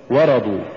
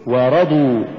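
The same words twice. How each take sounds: First: ورضوا short, run into one word; wrong stress. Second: ورضوا with و set apart and رضوا pushed; push after waw. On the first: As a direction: say ورضوا quickly, weight on the و. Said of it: "ولا تقل". (نطق ورضوا دون دفع الراء) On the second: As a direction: lean on the ر in ورضوا. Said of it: "قل". (نطق ورضوا بدفع الراء بعد الواو) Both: Shown as a demonstration.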